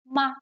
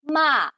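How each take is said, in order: First: The syllable is light with a slight drop. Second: The pitch falls sharply from high to low. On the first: It can be a question particle. "just a really light drop" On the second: It can mean to scold. "it goes straight down"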